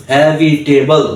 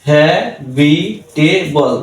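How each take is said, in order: First: Said in the usual way. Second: habitable very slow, gaps between syllables; slow four-beat teaching demo of habitable; split into syllables. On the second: Shown as a demonstration. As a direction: sound out habitable one syllable at a time.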